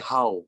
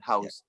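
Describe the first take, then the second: First: The final s sound is dropped, Vietnamese-style. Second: The final s sound is clearly heard.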